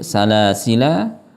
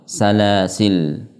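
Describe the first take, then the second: First: The word ends with a final vowel. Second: The word ends on a consonant with no vowel. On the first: The alif is kept when stopping. "menetapkan alif" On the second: The alif is dropped when stopping. "menghapus alif"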